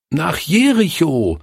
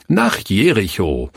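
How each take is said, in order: First: Put-on high eager chorus of children calling. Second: Said in the usual way. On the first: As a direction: call it out like a room of kids. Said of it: "riefen sie". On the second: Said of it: "Ach, richtig".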